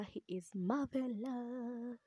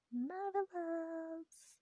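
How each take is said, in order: First: Slow, stretched "marvelous"; swooning praise. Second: "Marvelous" high and held very long; long, soaring "Marvelous"; exaggerated swoon. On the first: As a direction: draw out "marvelous" admiringly. Swooning over the hero's looks. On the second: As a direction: swoon the word out, slowly and high. Repeats the swoon, sung out. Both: Real, not acted.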